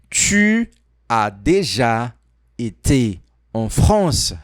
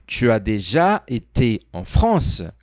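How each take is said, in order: First: The sentence is said more slowly. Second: The sentence is said at normal speed.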